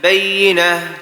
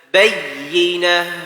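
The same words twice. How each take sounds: First: The doubled 'yy' sound is rushed over quickly. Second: The doubled 'yy' sound is held clearly. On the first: The speaker calls it wrong. "jangan kita baca karena kita hanya berlalu aja" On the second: The speaker calls it right. "Tidak, bayyinah, bayyinah, yi. Ya, terucap yi"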